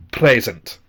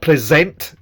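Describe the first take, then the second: First: Present, stress on the first syllable, slower; correct stress. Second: Present, mistaken stress on the end; wrong stress. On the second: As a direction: present stressed on the second syllable, pre-SENT. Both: Shown as a demonstration. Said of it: "the stress is in the same place as it is in the word present".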